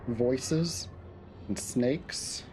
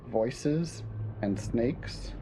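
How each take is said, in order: First: The audio sounds clear and unprocessed. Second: The audio sounds muffled and dull. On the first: "That's unchanged" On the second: "The second one was kind of muffled"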